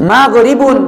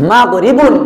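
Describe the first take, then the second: Both takes have the same delivery.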